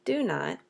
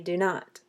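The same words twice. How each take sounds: First: The stress falls on the first word. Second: The stress falls on the second word. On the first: The speaker calls it wrong. "We don't say do not" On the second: The speaker calls it right. "we say do not"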